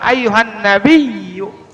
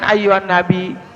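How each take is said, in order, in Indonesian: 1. Bunyi y dalam nabiyyu jelas dobel. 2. Bunyi y dalam nabiyyu pendek, tidak dobel. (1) "Jadi bacanya tasdidnya harus jelas" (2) "jangan ayyuhan nabi, ayyuhan nabi, salah"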